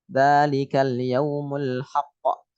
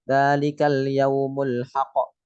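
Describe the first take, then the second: First: It is read slowly, holding the final consonant. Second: It is read quickly, without holding the final consonant. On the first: The speaker calls it right. "kalau bacanya pelan-pelan akan kelihatan" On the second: The speaker calls it wrong. "itu kan terlalu cepat"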